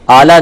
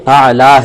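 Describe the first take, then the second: First: The word begins with a plain vowel. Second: The word begins with a throaty ayn sound. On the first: The speaker calls it wrong. "आला नहीं है" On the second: The speaker calls it right. "आला ये ऐन है"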